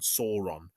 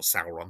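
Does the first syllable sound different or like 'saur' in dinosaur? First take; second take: like dinosaur; different. First: The first syllable sounds like 'saur' in dinosaur. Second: The first syllable differs from 'saur' in dinosaur. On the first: It names the dinosaur villain. The speaker calls it right. "as in dinosaur" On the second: It names a different character. The speaker calls it wrong. "not Sauron"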